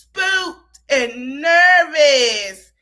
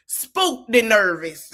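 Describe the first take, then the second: First: Very slow, louder, drawn-out spooked and nervous; Armand voice. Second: Said in the usual way. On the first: Retold or imitated. Host redoes spooked and nervous in her friend Armand's voice, very slow. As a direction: stretch every word like her friend Armand would. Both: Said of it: "say it in my boy Armand voice".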